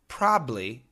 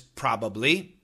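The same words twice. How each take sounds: First: The word is shortened with sounds dropped. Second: All syllables of the word are fully pronounced. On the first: "many Americans just say probably" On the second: "The perfect pronunciation is probably"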